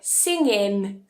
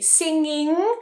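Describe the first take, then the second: First: The word ends with a plain n sound. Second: The word ends with a nasal ng sound. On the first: "some accents might say it like singin, so a n" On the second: "If we say singing"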